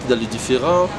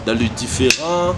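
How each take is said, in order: Both takes have the same delivery.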